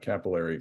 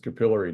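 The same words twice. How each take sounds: First: It is said the American way. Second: It is said the Canadian way. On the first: The speaker calls it wrong. "not capillary" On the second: The speaker calls it right. "I've been corrected so many times by my Canadian friends that it's capillary"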